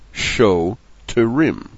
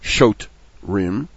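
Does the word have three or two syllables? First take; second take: three; two. First: The word is said with three syllables. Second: The word is said with two syllables. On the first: The speaker calls it right. "followed by the show terim" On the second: The speaker calls it wrong. "not shot rim"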